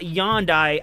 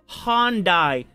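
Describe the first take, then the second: First: The word begins with a Y sound. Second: The word begins with an H sound. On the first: The speaker calls it wrong. "not Yondai" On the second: The speaker calls it right. "Pronounce the H. It's Hyundai"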